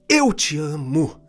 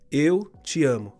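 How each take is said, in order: First: It is said in a lively, expressive voice. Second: It is said in a flat, monotone voice. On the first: "Olha como que muda" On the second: "monótono"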